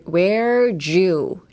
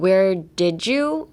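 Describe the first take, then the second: First: The D and Y blend into a J sound. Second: The D is pronounced clearly before you. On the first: The speaker calls it right. "pronounce it as a J" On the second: The speaker calls it wrong. "Like not where did you"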